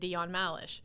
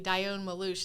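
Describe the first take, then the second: First: The surname ends with a 'lish' sound. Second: The surname ends with a 'loosh' sound. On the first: This is how the name is meant to be said. The speaker calls it right. "instead of" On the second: This is how other people usually say the name. The speaker calls it wrong. "they always say"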